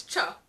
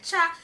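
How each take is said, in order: First: "cha" in its true Jamaican form; right cha. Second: "cha" as non-Jamaicans say it, higher and louder; wrong cha. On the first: Jamaican reviewer giving the correct cha. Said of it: "It's cha". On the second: Jamaican reviewer showing the book's wrong cha. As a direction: say "cha" the outsider's way. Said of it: "is just wrong". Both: Shown as a demonstration.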